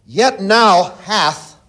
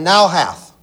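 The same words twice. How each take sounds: First: "now hath" slow and leaned on, drawn out; stress on now hath. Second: "now hath" repeated, pressed firmly; stress on now hath. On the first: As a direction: lean hard on "now hath". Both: Shown as a demonstration.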